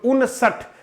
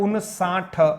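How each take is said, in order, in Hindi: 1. अंतिम अक्षर में ह्रस्व स्वर है। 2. अंतिम अक्षर में दीर्घ स्वर है। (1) "बिल्कुल उनसठ" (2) "कई बार ऐसा बोल दिया जाता है उनसाठ, वो व्याकरण के दृष्टिकोण से ठीक नहीं है"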